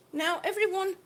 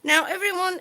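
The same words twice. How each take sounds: First: Said in the usual way. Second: Calling out. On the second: Real, not acted. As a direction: call out to the whole chat.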